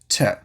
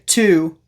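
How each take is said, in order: First: The word shrinks to a quick T sound. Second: The word has a full clear vowel. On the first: The speaker calls it right. "we're going to say t" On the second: The speaker calls it wrong. "we're not going to say to"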